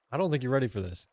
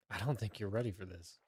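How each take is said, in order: First: Louder, punchy teasing declaration; loud hype. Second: Low, soft teasing aside; quiet tease. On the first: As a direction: announce it boldly to the chat. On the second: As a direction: murmur it like a secret. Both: Real, not acted.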